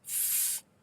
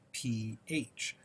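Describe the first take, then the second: First: It is said as a single F sound. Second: It is spelled out as two separate letters. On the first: The speaker calls it wrong. "Don't say F" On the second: The speaker calls it right. "always say P H"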